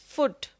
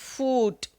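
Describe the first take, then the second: First: The vowel is a short oo sound. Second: The vowel is a long oo sound. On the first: The speaker calls it right. "words with a short oo sound" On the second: The speaker calls it wrong. "not foot"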